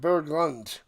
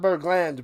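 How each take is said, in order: First: The last syllable sounds like 'lund'. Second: The last syllable sounds like 'land'. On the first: The speaker calls it right. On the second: The speaker calls it wrong.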